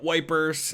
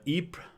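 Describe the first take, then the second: First: It is said with a British pronunciation. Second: It is said with a French pronunciation. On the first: This is what the British called it. "the British called it Wipers" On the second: This is what the French call it. "the French call it Ypres"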